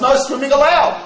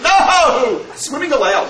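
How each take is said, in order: First: It is said as one phrase without pause. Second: There is a pause after no.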